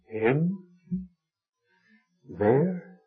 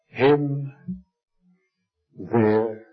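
First: The voice rises at the end. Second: The voice falls at the end.

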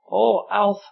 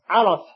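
First: The word is said calmly and gently. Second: The word is said forcefully and sharply. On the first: The speaker calls it right. "I said it calmly" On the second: The speaker calls it wrong. "I didn't say it like that"

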